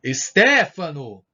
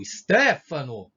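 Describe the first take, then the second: First: Long, loud call of the name. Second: Loud, drawn-out call. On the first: Teacher showing an exclamation by calling Stefano. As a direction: call him from far away. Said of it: "Repararam a entonação?". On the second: Teacher repeating Stefano's call. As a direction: call the name across a distance. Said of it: "Eu tô referindo a alguém que tá me chamando". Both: Shown as a demonstration.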